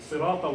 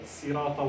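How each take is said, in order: First: The s sound is deep and heavy. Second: The s sound is light and thin. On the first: "with sad" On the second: "with sin"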